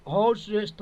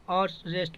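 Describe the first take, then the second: First: हॉर्स रेस्ट with the h sounded; हॉर्स रेस्ट misread with h pronounced; wrong pronunciation. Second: आर्ट्स रेस्ट with no h; आर्ट्स रेस्ट with the first letter h silent; correct pronunciation. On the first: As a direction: say हॉर्स रेस्ट starting on an audible h. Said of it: "हॉर्स रेस्ट थोड़ी पढ़ेंगे". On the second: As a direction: say आर्ट्स रेस्ट opening on the vowel. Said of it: "आर्ट्स रेस्ट पढ़ेंगे". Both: Shown as a demonstration.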